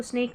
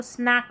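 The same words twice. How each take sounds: First: "स्नेक" with a long "ay" vowel, as in snake; wrong long-A reading. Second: "स्नैक" with a short open "a", as in cat; correct short-A reading. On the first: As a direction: stretch the vowel of "स्नेक" to "snayk". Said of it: "इसको स्नेक नहीं पढ़ना". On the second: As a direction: open the vowel of "स्नैक" to "snack", not "snayk". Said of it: "इसको स्नैक पढ़ना". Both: Shown as a demonstration.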